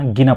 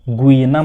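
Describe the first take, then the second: First: It begins with a plain 'gee' sound. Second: It begins with a 'gwee' sound. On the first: The speaker calls it right. "गिना पढ़ते हैं इसको" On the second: The speaker calls it wrong. "गुइना मत पढ़ना"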